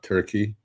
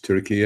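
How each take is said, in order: First: It is said like the English bird name. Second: It is said unlike the English bird name. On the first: It sounds like the holiday bird. "It's not Turkey. Although that's fine" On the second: It names the country. "It's Turkey"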